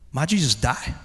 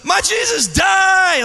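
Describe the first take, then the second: First: It is said softly as a question. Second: It is screamed at full volume.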